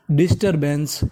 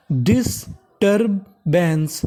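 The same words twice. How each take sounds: First: Said in the usual way. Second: disturbance drawn out slowly, sound by sound; slow syllable by syllable. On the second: Shown as a demonstration. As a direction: model disturbance slowly for learners. (धीरे-धीरे शब्द तोड़कर) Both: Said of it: "तो meaning बन गई".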